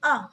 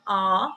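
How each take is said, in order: First: Short "A" as in British dance; British A vowel. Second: Drawn-out "A" as in American dance; American A vowel. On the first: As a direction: say "A" briefly, the British way. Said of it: "in British". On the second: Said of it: "in America, A". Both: Shown as a demonstration.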